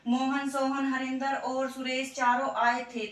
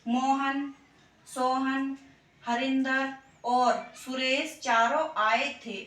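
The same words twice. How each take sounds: First: The names run together with no pauses between. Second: Short pauses separate the names from each other. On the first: The speaker calls it wrong. "अब मैं आपको ऐसे ही बोल दूं इन्हें" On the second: The speaker calls it right. "थोड़ा सा रुकने के लिए अल्प विराम का प्रयोग किया जाता है"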